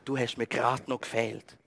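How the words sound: It is said in an annoyed, negative tone. The visit is unwelcome right now. "Wenn man so mit einem entsprechenden Unterton sagt, dann passt einem ein Besuch nicht"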